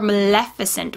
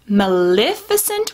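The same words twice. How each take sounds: First: The second syllable has an E vowel. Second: The second syllable has an I vowel. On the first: "with like an E" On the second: "with like an I sound"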